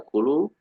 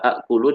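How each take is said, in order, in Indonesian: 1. Vokal pertama panjang tanpa hamzah. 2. Hamzah mengikuti vokal pertama yang pendek.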